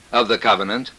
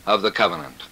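Both takes have the same delivery.

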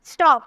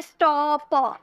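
First: Said in the usual way. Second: stop drawn out in pieces, sto... p; stop said haltingly, the p on its own; broken apart. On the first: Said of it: "एक ही sound आ रहा". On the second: Shown as a demonstration. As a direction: split stop into separate sounds. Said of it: "अलग अलग करके तो नहीं".

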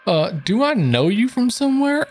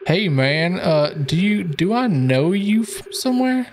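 First: Starstruck fan voice. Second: Higher, curious stranger; lightly voiced stranger; character voice. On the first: Acted. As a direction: gush like a fan. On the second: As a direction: ask it starstruck. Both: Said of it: "nice voice acting stuff".

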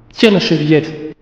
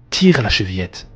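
First: High, slow grandmother voice; grandmother calling out. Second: Said in the usual way. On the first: A narrator's reading. Grandmother telling the visitor how to enter, high and slow. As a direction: call it high and drawn out. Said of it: "dit la grand-mère".

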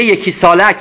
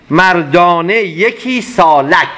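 First: Said in the usual way. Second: Slow poem recitation. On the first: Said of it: "بنابراین میگه". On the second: Acted. Teacher finishing the verse line, very slow. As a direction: stretch out مردانه یکی سالک very slowly, weight on یکی.

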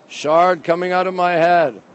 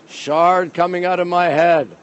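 The two takes are said the same way.

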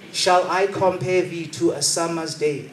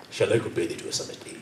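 First: "Shall I compare thee to a summer's day?" drawn out slowly, grandly; slow theatrical Shakespeare line; poetic recitation. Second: "Shall I compare thee to a summer's day?" whispered fast and low; quick, low whispered line; whispered take. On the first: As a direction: recite it slowly like a classical actor. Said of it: "I don't speak like that". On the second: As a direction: rush it out in a lower whisper. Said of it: "It's not me". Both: Shown as a demonstration.

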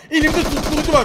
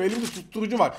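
First: Louder, insistent repeat with var falling. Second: Said in the usual way. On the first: Real, not acted. Streamer repeating to the enemy, louder and insistent. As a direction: say it again and press harder on it.

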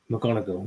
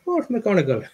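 First: Said in the usual way. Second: High-pitched, playful Irish lilt; mock Irish accent. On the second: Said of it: "proper Irish".

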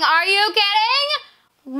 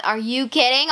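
First: High, slow drawn-out are you kidding; stunned disbelief. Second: Said in the usual way. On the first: Real, not acted. Kid stunned by a gift, drawn-out disbelief. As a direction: stretch out the disbelief.

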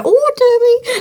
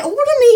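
First: Lightly raised pitch, a little louder, laughing through it; a light, playful put-on oyster voice. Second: Be the oyster inviting you over; a mild, playful put-on oyster voice. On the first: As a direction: play a cute oyster calling you over. Oyster with feet comes over. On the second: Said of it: "It come over to you and say".

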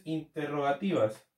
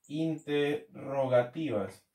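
First: Said in the usual way. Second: Half-speed, broken into syllables; slow dictation. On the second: Real, not acted. Teacher repeating a term as it is written, slow dictation. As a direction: say it slowly as if writing it out.

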